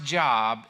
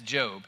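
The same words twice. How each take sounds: First: The vowel is a short 'o', like 'job'. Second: The vowel is a long 'oh', like 'robe'. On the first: The speaker calls it wrong. "if you thought it was pronounced Job" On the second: The speaker calls it right. "we pronounce it as Job"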